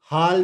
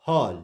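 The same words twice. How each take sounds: First: हाल with a long open 'aa'; wrong vowel. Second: हॉल with a rounded 'aw'; correct vowel. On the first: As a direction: say हाल with 'aa', as the mistaken reading. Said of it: "नहीं पढ़ेंगे". (हाल में 'आ' की आवाज़) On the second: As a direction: say हॉल with 'aw', not 'aa'. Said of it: "ए को आ से". (हॉल में 'ऑ' की गोल आवाज़) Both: Shown as a demonstration.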